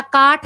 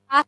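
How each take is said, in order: First: काठ with a plain long aa straight into ठ; colloquial form. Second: काठ said as काष्ठ, sibilant before the ठ; Sanskrit form. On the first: Teacher showing students the non-tatsam word, काठ without a sibilant. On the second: Teacher correcting to the tatsam word, काठ with added sibilant. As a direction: put a sh sound into काठ before ठ. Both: Shown as a demonstration. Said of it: "काठ होता है".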